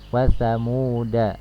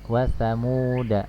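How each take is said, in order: The two takes are said the same way.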